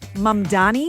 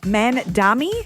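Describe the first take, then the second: First: The second consonant is an M sound. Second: The second consonant is an N sound. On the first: The speaker calls it right. "Mamdani is the right way to say it" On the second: The speaker calls it wrong. "mixing up the M and the N in his name"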